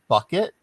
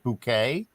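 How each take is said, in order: First: The name sounds like the word bucket. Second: The name sounds like the word bouquet. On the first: This is the name's ordinary pronunciation. "it's pronounced bucket" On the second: The bearer pretends to be upper class. "she pronounces it bouquet"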